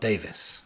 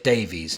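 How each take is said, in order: First: The name ends with a 'vis' sound. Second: The name ends with a 'veez' sound. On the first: The speaker calls it wrong. "not Davis" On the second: The speaker calls it right. "I said Davies, not Davis. I said it right this time"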